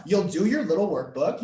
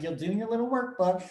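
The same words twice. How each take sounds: First: Said in the usual way. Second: Higher, playful self-parody of talking down; mock condescending. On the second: Workshop host mocking her own remark about workbooks, mock condescending. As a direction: imitate yourself patronising a student. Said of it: "that sounds so condescending".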